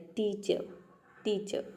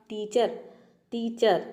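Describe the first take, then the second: First: Soft टीचर with no र sound at the end; silent R teacher. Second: टीचर with a full rolled र at the end; full R teacher. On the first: Teacher showing students the correct टीचर with a silent र. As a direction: say टीचर with the र left silent, trailing off quietly. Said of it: "अब यहाँ पे हम आर को pronounce नहीं कर रहे हैं". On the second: Teacher showing students the wrong टीचर with a full र. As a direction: say टीचर pronouncing the whole र sound. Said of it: "इस तरह से आप बोलेंगे तो आपका, आपका प्रोनाउंसिएशन गलत". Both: Shown as a demonstration.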